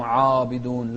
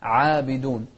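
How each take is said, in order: First: عابدون with a thick, dark first vowel; wrong heavy ayn. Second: عابدون with a thin long a; light ayn. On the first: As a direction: darken the عا of عابدون. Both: Shown as a demonstration. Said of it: "مو عابدون".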